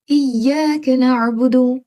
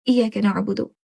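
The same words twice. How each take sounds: First: इय्याका with the long a drawn two seconds; long vowel. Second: इय्याका rushed with a short a; wrong short vowel. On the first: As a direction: stretch इय्याका slowly. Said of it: "इसको दो second आपने खींचना है". (इय्याका में लंबा खिंचा आ) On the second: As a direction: clip इय्याका too fast. (जल्दी छोटा इय्याका) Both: Shown as a demonstration.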